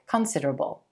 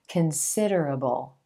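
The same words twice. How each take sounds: First: The stress is on the first syllable. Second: The stress is on the second syllable. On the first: The speaker calls it wrong. "will put the emphasis on the first syllable in this word, making it sound more like considerable" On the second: The speaker calls it right. "You want to shift that stress to the second syllable"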